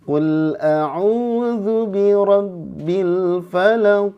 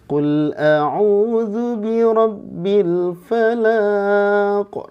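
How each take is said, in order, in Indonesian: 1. Suku kata terakhirnya dibiarkan pendek. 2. Suku kata terakhirnya dipanjangkan. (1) "tetap ujungnya pendek" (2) "jadi dipanjangin"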